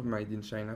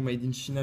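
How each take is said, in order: First: China said as "shy-na", English-style; softer, lower correction with an English "eye" in China; corrected English pronunciation. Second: China said as "shee-na", French-style; French-style slip. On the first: Unboxer correcting their English accent, China said English-style as "shy-na". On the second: Unboxer slipping on an English label, China said French-style as "shee-na". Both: Real, not acted. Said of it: "Mon accent anglais est parti".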